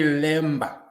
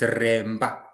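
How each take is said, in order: First: The word begins with an L sound. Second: The word begins with an R sound. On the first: This is how outsiders say the name. The speaker calls it wrong. "when you say lemba to us" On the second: This is how the people themselves say the name. The speaker calls it right. "it's remba"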